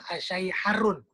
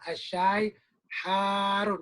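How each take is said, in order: First: The vowel after the h is short. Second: The vowel after the h is long. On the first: The speaker calls it wrong. "Nggak bisa kita bilang asyai harun. Salah" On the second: The speaker calls it right. "Hanya panjangin. Hanya ada mad"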